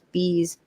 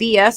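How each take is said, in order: First: The name is said as one word, bees. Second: The name is spelled out as two letters. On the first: The speaker calls it right. "and it's bees, like bumblebees" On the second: The speaker calls it wrong. "we've been calling B S this whole time"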